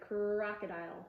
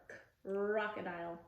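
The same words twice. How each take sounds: First: "Crocodile" joined up with a long R; no gap in "Crocodile", R still stretched; blended word. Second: Lone "K", pause, then "crocodile" from a long R; segmented, squeezed R. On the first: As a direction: run the k straight into the R of "Crocodile". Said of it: "Put it together". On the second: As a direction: split "K, crocodile" after the k. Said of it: "squeeze your tongue on the R". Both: Shown as a demonstration.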